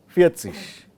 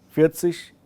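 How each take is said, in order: No difference in how they are said.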